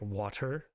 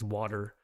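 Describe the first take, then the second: First: The T is a crisp, clear T. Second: The T is flapped, sounding like a D.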